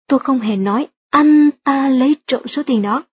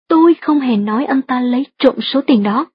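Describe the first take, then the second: First: The words anh ta are stressed. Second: The word tôi is stressed. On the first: Someone else did it, not him. "được nhấn mạnh ở từ anh ta trong câu" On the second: Someone else said it, not the speaker. "nếu nhấn mạnh từ tôi trong câu thứ hai như thế này"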